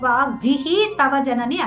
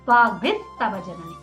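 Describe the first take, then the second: First: The first word ends with a separate 'hi' sound. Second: The first word ends with an 's' sound. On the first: The speaker calls it wrong. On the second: The speaker calls it right.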